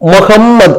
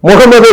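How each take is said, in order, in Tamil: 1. நடுவில் இருக்கும் "m" ஒலி இரட்டையானது. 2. நடுவில் இருக்கும் "m" ஒலி ஒற்றையானது. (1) "இது முகம்மத், அதாவது டபுள் எம் போடுறோம் இல்லையா, ரெட்டிப்பாகுது" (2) "அப்ப முகமது இல்ல"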